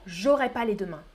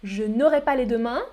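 First: J'aurai run quickly, ne dropped; quicker contracted form. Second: Said in the usual way. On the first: Shown as a demonstration. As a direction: say it casually, lower and contracted. (plus rapidement, sans le ne) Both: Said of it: "ou plus rapidement".

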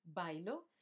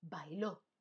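First: Bailo stressed on BAI, final o unaccented; stress on first syllable. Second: Bailó stressed on the final ó; stress on final syllable. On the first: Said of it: "sin acento". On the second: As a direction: say bailó as bai-LÓ. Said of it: "con acento". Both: Shown as a demonstration.

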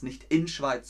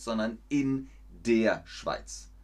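First: Said in the usual way. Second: "in der" stressed as the correction; teacher stressing "in der"; correct form stressed. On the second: Shown as a demonstration. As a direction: lean on "in der Schweiz".

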